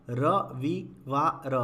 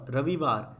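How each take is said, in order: First: रविवार split slowly as र… वि… वा… र; syllable by syllable. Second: Said in the usual way. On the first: Shown as a demonstration. Teacher reads the word for learners, broken up. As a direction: sound out रविवार in pieces. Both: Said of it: "पहले पढ़ लेते हैं".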